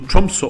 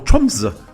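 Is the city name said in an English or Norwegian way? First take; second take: English; Norwegian. First: The name is said in an English-style way. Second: The name is said in a Norwegian way.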